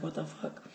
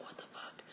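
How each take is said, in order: First: Much softer, half-voiced; soft murmur. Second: Hushed whisper in the dark. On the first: Partner's reply in the dark. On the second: Retold or imitated. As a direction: whisper it so you won't wake anything. Woken in bed by screams.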